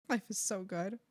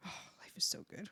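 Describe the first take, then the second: First: Said in the usual way. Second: Soft breathy whisper; whispered bliss. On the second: Real, not acted. Streamer savouring her good luck, whispered bliss.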